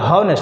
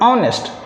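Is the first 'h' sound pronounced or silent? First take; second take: pronounced; silent. First: The word begins with an 'h' sound. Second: The word begins directly with a vowel. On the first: The speaker calls it wrong. "जो लोग बोलते हैं" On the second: The speaker calls it right. "लेकिन ना बेटा लोग"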